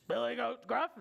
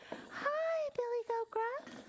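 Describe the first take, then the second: First: Lightly gruff troll calling out. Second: Very high, tiny mock troll voice; squeaky trial troll voice. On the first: Acted. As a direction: hail them in a mildly gruff voice. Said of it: "this troll has kind of a gruff voice". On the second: Shown as a demonstration. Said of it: "Should I have this kind of voice".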